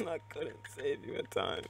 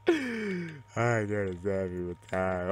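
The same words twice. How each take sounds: First: Higher, slow, laughing regret; laughing lament. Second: Very slow, stretched-out mock wail; mock lament. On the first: Real, not acted. Gamer to fallen teammate, laughing lament. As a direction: laugh through a drawn-out apology. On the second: Gamer to fallen teammate, slow mock lament.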